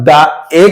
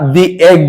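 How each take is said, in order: First: 'The' is said with a short 'thuh' vowel. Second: 'The' is said with a long 'thee' vowel. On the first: The speaker calls it wrong. "দা egg বলবো" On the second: The speaker calls it right. "দি egg বলবো"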